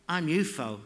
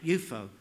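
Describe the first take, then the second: First: "ufo" said as one word, you-foh; "ufo" run together as you-foh. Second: "ufo" said as one word, you-foh again; "ufo" pronounced as you-foh. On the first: Acted. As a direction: say "ufo" like a word, not letters. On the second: A narrator's reading. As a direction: repeat "ufo" as a single word. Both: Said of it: "She said it like ufo".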